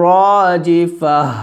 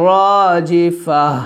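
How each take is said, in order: The two takes are said the same way.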